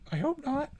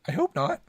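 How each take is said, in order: First: Much higher, thin squeak; high squeaky. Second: Said in the usual way. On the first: Shown as a demonstration.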